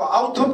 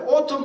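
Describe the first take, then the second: First: The first vowel is pronounced 'ow'. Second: The first vowel is pronounced 'oh'. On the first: "아우텀 하면 어떻게 할까요?" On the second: "가을 그럴 때는 O예요"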